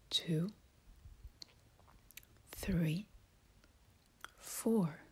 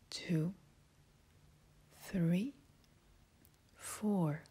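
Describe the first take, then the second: No difference in how they are said.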